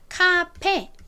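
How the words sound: It is said with Korean pronunciation. "한국에서는 이거를 아까 본 것처럼 카페 이렇게 발음을 하지만"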